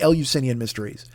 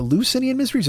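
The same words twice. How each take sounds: First: Eleusinian starting "el-you"; spelled-out first syllables. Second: Eleusinian starting "uh-LOO"; short first syllable. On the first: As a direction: say Eleusinian as "el-you-SIN-ian". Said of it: "I think it's the". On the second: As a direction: say Eleusinian as "uh-loo-SIN-ian". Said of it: "Is it the Eleusinian Mysteries or". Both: Shown as a demonstration.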